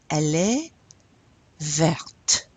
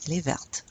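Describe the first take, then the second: First: "verte" with its final T clearly sounded, the word set apart after a pause; teacher spells out the T at the end of "verte". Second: "verte" said quickly with the final T just audible, no pause before it; sounded T in verte. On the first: Teacher shows students how to say feminine green, T sounded. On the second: Teacher repeats the feminine green for students, T sounded. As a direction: run "Elle est verte" together at normal speed, T still sounded. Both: Shown as a demonstration. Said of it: "you pronounce that T".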